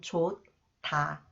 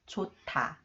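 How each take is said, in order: First: Each syllable is pronounced separately, one by one. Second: The syllables link, giving a t sound. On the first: The speaker calls it wrong. "If I read one by one" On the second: The speaker calls it right. "So it is read 타"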